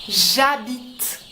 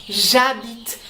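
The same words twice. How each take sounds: No difference in how they are said.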